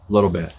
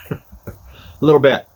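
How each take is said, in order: First: Said in the usual way. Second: Slow, stretched and louder, each word dragged out; drawn out. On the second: Shown as a demonstration. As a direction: savor the words slowly for a joke.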